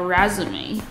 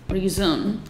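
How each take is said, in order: First: The word is pronounced the French way. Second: The word is pronounced the plain English way. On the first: The word means a CV. "它是法文来的意思，它的意思叫resume，是履历的意思" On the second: The word means to continue. "它是继续的意思"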